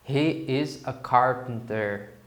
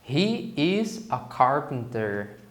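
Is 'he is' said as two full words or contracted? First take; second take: full; full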